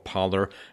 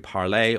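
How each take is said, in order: First: The name is said the American way. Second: The name is said the non-American way.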